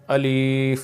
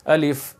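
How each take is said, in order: First: الف wrongly stretched out long; الف with an over-long vowel; wrong long alif. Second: الف said short and crisp; الف with a short vowel, the correct way; short alif. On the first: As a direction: drag الف out too long, as some people do. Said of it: "اس طرح لمبا نہیں کرنا". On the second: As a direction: keep الف short, not stretched. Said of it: "اس کو لمبا نہیں کرنا". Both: Shown as a demonstration.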